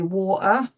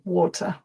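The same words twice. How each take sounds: First: The t is replaced by a glottal stop. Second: The t is clearly pronounced. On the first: The speaker calls it wrong. "My mum would shoot me if she heard me say water" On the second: The speaker calls it right. "sorry, mum"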